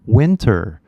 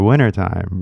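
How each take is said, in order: First: WINTER with the T fully pronounced; hard-T WINTER. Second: WINTERTIME with the first T dropped, like "winnertime"; California WINTERTIME. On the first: New Zealander finally understands the word, WINTER with a clear T. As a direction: sound out the T in WINTER. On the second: Californian shrugs off the correction, WINTERTIME without its first T. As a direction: drop the T after the N in WINTERTIME. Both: Retold or imitated. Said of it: "we don't say the T".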